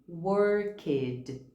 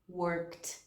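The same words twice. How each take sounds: First: The ending is voiced as an extra syllable. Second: The ending adds no extra syllable. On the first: The speaker calls it wrong. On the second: The speaker calls it right.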